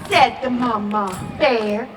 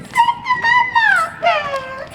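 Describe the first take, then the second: First: Said in the usual way. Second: Tiny squeaky voice up high; squeaky high echo. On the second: Acted. Squeaky high echo for the kids. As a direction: squeak it like a toy.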